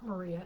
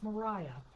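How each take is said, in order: First: The middle syllable has an 'ee' vowel. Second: The middle syllable has an 'eye' vowel. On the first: The speaker calls it wrong. "I'm pronouncing it incorrectly. It's not Maria" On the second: The speaker calls it right. "it's Mariah"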